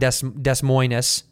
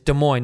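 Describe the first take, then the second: First: The final S sounds are pronounced. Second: The final S sounds are silent. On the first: The speaker calls it wrong. "not Des Moines" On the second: The speaker calls it right. "it's Des Moines"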